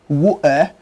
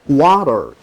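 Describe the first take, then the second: First: It is said in a nonstandard British accent. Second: It is said in a standard American accent. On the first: "not standard British pronunciation" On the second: "is standard American pronunciation"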